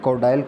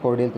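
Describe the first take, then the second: First: The ending sounds like the word dial. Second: The ending sounds like dee-al, not dial. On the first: The speaker calls it wrong. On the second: The speaker calls it right.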